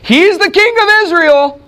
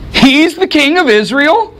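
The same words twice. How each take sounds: First: The voice falls at the end like an exclamation. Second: The voice rises at the end like a question. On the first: The claim is declared mockingly. "exclamation point" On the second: The claim is doubted as a question. "question mark"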